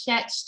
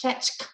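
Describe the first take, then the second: First: "fetch" with no K on the end; "fetch" closing on ch, no K; word without final K. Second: "fetchk" with a K after the ch; "fetchk", ch followed by a final K; added final K. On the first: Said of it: "it could also be". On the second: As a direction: close "fetchk" on a K sound. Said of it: "with a K". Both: Shown as a demonstration.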